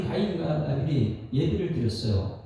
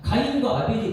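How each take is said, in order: First: Said in the usual way. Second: 가인과 아벨이 called out louder and higher, falling; emphatic opening. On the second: Shown as a demonstration. Preacher opening the Cain and Abel story, emphatic announcement.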